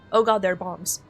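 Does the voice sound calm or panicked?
calm. It is said flatly, without urgency. The speaker calls it wrong. "instead of saying"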